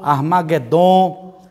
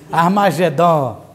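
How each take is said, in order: First: The g is a hard sound, as in go. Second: The g is a soft zh sound. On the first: This is how it sounds in Greek. "no grego não tem o J, o som do J... toda a pronúncia é G" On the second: This is how it sounds in Portuguese. "Agora a gente é portuguesa, né? ... Pronto, fica melhor"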